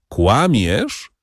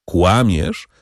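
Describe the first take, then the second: First: Firmer, more imperious "Kłamiesz?" with a rise; a touch of a commanding priest. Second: Firm. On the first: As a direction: press "Kłamiesz?" with mild authority. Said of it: "jeszcze bardziej władczo". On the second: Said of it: "powiedział ksiądz Busoni stanowczo". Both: A narrator's reading.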